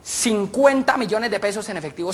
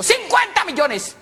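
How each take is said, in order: First: Said in the usual way. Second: CINCUENTA MILLONES cried out high and slow; drawn-out astonished cry; amazed exclamation. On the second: Acted. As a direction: stretch the figure out in high-pitched amazement. Same words repeated in amazement.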